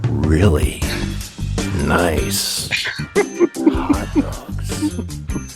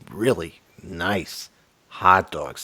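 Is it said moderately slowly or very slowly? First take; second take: very slowly; moderately slowly. First: It is said at a very slow pace. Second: It is said at a moderately slow pace.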